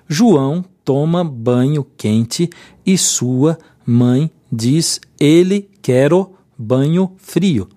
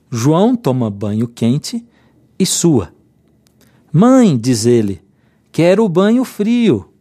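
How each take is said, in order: First: It is read without pauses. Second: It has pauses after 'sua', 'mãe' and 'ele'.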